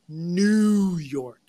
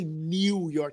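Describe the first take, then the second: First: 'New' is said without a 'y' glide, like 'noo'. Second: 'New' is said with a 'y' glide, like 'nyoo'. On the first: The speaker calls it right. "you say New York" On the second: The speaker calls it wrong. "you don't say New York"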